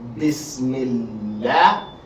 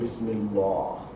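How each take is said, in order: First: The l sound is light and thin. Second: The l sound is heavy and full. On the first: The speaker calls it right. "is pronounced likely as in Bismillah" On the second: The speaker calls it wrong. "instead of"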